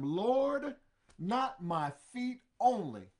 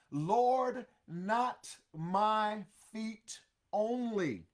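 First: Eager Peter. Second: Loud Lord, then drawn-out slow plea; eager Peter. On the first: Peter begging Jesus, loud urgent plea. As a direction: Lord called out loud, rest slow and urgent. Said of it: "Simon Peter saith unto him". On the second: Peter pleading with Jesus, slow loud plea. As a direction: plead it slowly and loudly. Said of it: "Oh my goodness". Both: Acted.

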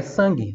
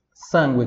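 First: Sangue as "SAN-ghi", silent U; Portuguese pronunciation. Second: Sangue as "SAN-gweh"; Italian pronunciation. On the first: Teacher translates for students, sangue in Portuguese without the U. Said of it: "em português". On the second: Teacher contrasts with Portuguese, sangue in Italian with "gw". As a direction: sound the U in sangue. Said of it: "em italiano". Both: Shown as a demonstration.

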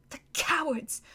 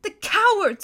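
First: High, soft sobbing words; tearful whisper. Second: High, louder sobbing cry; sobbing outcry. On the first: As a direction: choke it out through tears. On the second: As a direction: break out in grief and anger. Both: Acted. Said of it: "sobbed Susan".

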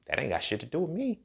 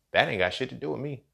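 First: Soft, dismissive brush-off. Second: Shutting down condescending people, with "That" stressed; repeated, stress on That. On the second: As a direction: lean on "That" to dismiss it. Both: Shown as a demonstration.

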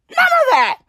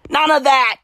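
First: "None" jumps much higher; high scoffing "None of that"; pitched-up mock scoff; mock dismissal. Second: Said in the usual way. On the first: Shown as a demonstration. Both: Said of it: "repeated with different delivery".

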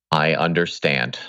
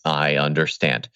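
First: Sheepish, caught-out admission; guilty voice. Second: Said in the usual way. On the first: Pretend. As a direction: say it like you've been caught red handed. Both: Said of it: "that was my guilty voice".

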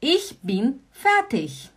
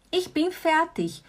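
First: Slow, careful Ich bin fertig; slow model phrase. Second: Ich bin fertig repeated higher and slower; higher repetition. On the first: Teacher slowly modelling the phrase for students. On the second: Teacher repeating the phrase slowly for students. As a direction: lift the repeat up, unhurried. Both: Shown as a demonstration. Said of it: "Also gut".

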